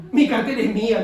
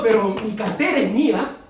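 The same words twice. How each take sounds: First: "Mi" punched loud and possessive; louder insistence on "Mi"; stress on MI. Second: Louder, clinging to "cartera"; mock stingy believer; possessive insistence. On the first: Retold or imitated. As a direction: hit "Mi" hard in "Mi cartera es mía". Believer refusing, repeats. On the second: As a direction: say "mi cartera es mía" as if hugging a wallet. Believer refusing to give money.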